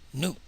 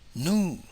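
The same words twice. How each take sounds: First: The vowel is short and clipped. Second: The vowel is long with a high tone. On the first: Tender, delicate, soft, or unripe. "short vowel" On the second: Cooked until really soft and tender. "high tone"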